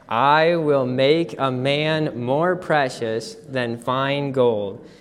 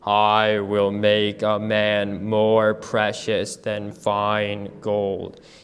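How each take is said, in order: First: It is said in a normal speaking voice. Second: It is said in a very low voice.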